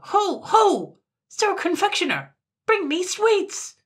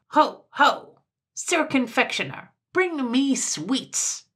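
First: Very high, full-force imperious yell; piercing, demanding call; even louder shout. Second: High, imperious shout across a shop; loud, high summons; loud cry. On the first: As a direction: bellow the order at the top of your range. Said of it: "called out louder still". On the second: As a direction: call out grandly, drawing out the order. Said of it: "cried in ever so loud a voice". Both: A narrator's reading.

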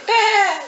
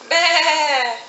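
First: Higher, louder bleating sheep. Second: Bleating like a sheep. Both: Shown as a demonstration. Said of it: "What does the sheep say?".

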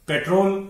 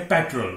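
First: पेट्रोल with a long "role" ending; common wrong pronunciation. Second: पेट्रोल with a short, reduced last vowel; correct pronunciation. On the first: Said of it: "जिसे आप पेट्रोल पढ़ते हैं". (गलत उच्चारण, लंबे ओ वाला पेट्रोल) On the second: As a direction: say पेट्रोल as PET-rul. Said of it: "यह है पेट्रोल". (सही उच्चारण, छोटे स्वर वाला पेट्रल) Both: Shown as a demonstration.

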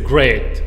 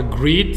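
First: "great" with an ay sound, loud; right vowel, "great". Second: "greet" with a long ee sound; wrong vowel, "greet". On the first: Teacher corrects learners, "great" with ay. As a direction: say "great" with ay, falling. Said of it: "c'est great". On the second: Teacher shows the mistake, "greet" with ee. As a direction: say "greet" with ee, rising. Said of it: "C'est pas greet". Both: Shown as a demonstration.

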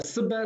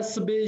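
First: Seba with an open final a; teacher's model of seba with a-ending; seba variant. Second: Sebe with a closed final é; teacher's model of sebe with é-ending; sebe variant. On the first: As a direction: end seba on a rather than é. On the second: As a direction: end sebe on é rather than a. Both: Shown as a demonstration. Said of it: "les deux, j'accepte".

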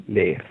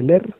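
First: Leer in two syllables, le-er; corrected leer. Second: Leer squashed into one syllable, like "ler"; clipped-vowel mistake on leer, as "ler"; mispronounced leer. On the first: Shown as a demonstration. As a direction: sound both e's of leer distinctly. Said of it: "se dice leer". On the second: Retold or imitated. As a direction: say leer wrongly, with a single e. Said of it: "no se dice leer".

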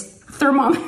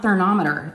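First: "thermometer" as ther-MOM-eter, higher, M stressed; emphatic correction, "thermometer" with an M; corrected with M. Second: "thermometer" mispronounced ther-NOM-eter; mock the slip "thermometer" as ther-NOM-eter; N instead of M. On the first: Retold or imitated. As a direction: punch the M in "thermometer". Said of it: "with an M". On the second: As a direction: put an N in the middle of "thermometer". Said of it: "she says thermometer".

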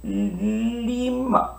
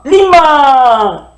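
First: Lima said very softly; soft model word. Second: Lima called out loud and high; loud model word. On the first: Teacher models the word softly for the class. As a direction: breathe out Lima gently. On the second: Teacher calls the word out to the children. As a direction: call out Lima to the class. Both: Shown as a demonstration. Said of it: "tal como hablamos".

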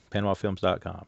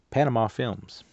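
First: Said in the usual way. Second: Panama Films read out louder and higher, with a lift on Panama; "Panama" hit hard as it is read off the box; reading the label out. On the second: Shown as a demonstration. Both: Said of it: "what does it say?".

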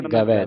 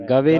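First: ਗਵੈ ending in open "ai"; ਗਵੈ with the double-lavan vowel; correct reading. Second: ਗਵੇ ending in narrow "e"; louder ਗਵੇ, said "gave"; ਗਵੇ with a single-lavan ending; wrong reading. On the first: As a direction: say ਗਵੈ as "gavai", lower. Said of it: "ਦਲਾਵਾਂ ਤਿਆਰ ਰੱਖਣਾ". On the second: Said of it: "ਨਹੀਂ ਪੜ੍ਹਨਾ". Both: Shown as a demonstration.

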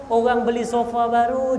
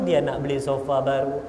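First: Rising setup. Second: Sulky drop. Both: Acted. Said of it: "Sebab isteri saya".

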